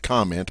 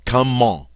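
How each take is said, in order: First: It is pronounced like the English word. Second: It is pronounced with a nasal French ending. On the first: The speaker calls it wrong. "it looks like the English word comment" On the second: The speaker calls it right. "It has that nice en en sound"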